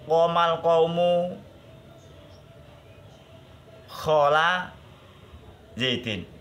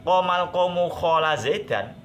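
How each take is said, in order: First: The last word ends with an 'i' vowel. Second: The last word ends with an 'a' vowel. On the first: The word khola works as a preposition. "mustasna ini dibaca jer" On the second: The word khola works as a past-tense verb. "kalau dibaca nasab"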